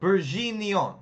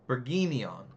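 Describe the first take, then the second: First: Careful French attempt at Bourguignon, zh in the middle; stronger G. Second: Bourguignon with a hard G as in get; careful Bourguignon, hard G, falling at the end. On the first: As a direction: lean hard on the zh in Bourguignon. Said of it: "stronger on the G sound". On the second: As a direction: say Bourguignon with a firm "gee" in the middle. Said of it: "Get. Okay, so". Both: Shown as a demonstration.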